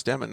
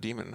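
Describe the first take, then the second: First: "Demon" as DEM-en, short e; corrected name pronunciation. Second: "Demon" as DEE-men, long ee; mistaken name pronunciation. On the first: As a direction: say "Demon" to rhyme with lemon. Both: Shown as a demonstration. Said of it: "I pronounce your last name wrong".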